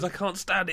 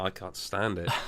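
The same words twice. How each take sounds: First: It sounds excited, like a delighted child. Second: It sounds genuinely angry and annoyed.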